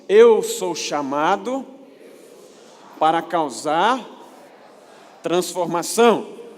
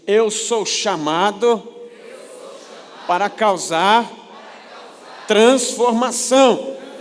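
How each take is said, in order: First: It is said in a plain, calm way. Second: It is said with gusto and energy.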